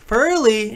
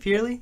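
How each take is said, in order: First: The first syllable sounds like 'fur'. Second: The first syllable sounds like 'fear'. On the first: The speaker calls it right. "actually Furley" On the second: The speaker calls it wrong. "I was trying to do like the Guy Fieri th- type thing"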